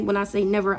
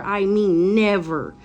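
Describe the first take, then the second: First: Said in the usual way. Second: Never drawn out slowly and pressed hard; stress on never. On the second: Shown as a demonstration. Insisting to viewers with a slow stressed never. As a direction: lean long on the word never.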